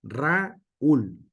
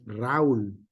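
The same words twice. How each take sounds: First: «Raúl» separado en «Ra-úl», con golpe en la «ú»; hiato marcado. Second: «Raúl» unido en una sílaba, lento; diptongo incorrecto. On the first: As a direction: decir «Raúl» cortando entre la «a» y la «ú» acentuada. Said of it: "no es Raúl". (ejemplo correcto de hiato) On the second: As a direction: decir «Raúl» juntando «au» como diptongo. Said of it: "este es Raúl". (ejemplo de pronunciación equivocada) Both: Shown as a demonstration.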